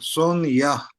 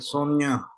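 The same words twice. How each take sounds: First: The word is said slowly and carefully. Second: The word is said quickly and run together. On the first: "like this" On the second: "Then we say it quick. It sounds like Sonia"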